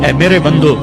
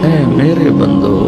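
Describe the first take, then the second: First: It is said in a plain, neutral tone. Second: It is said in a soft, tender tone. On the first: The speaker calls it wrong. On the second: The speaker calls it right.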